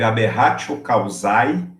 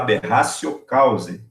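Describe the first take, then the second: First: Causae ends with an 'ai' sound. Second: Causae ends with an 'e' sound. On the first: The speaker calls it wrong. "Escreve aberratio causae" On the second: The speaker calls it right. "mas se fala aberratio causae. O A E em latim não tem som de ai, é som de E"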